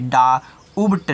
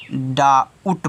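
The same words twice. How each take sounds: First: डाउट slowly, with a b forced in before t; wrong sounded B. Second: डाउट slowly, with no b before the t; silent B. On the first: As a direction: break डाउट up to expose a wrong b. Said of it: "डाउट नहीं पढ़ना है". (धीरे से डाउट, ब की आवाज़ के साथ) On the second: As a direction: draw out डाउट without any b. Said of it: "डाउट पढ़ना है". (धीरे से डाउट, ब silent) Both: Shown as a demonstration.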